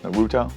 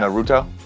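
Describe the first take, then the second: First: The stress is on the second syllable. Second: The same.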